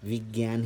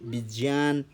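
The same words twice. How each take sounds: First: The cluster is said without a clear j sound. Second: The cluster is said with clear j and ñ sounds. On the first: This is the everyday spoken form. The speaker calls it wrong. "विज्ञान ही बोलते हैं" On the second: This is the strictly correct form. The speaker calls it right. "इसे विज्ञान ना बोल करके"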